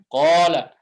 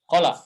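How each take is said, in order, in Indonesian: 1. Vokal pertama dibaca panjang. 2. Kedua vokal dibaca pendek. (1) "Tapi bilangnya qala" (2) "pendek dua-duanya"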